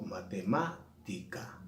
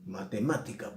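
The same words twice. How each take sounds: First: "matemática" slowly broken up, long stressed má, then ti, ca apart; stress on antepenultimate syllable. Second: Said in the usual way. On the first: Shown as a demonstration. Teacher demonstrates the esdrújula, slow syllables with stressed má in "matemática". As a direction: hit má in "matemática", then space out the last syllables. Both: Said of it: "antepenúltima sílaba llevan acento".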